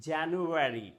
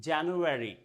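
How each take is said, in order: The two takes are said the same way.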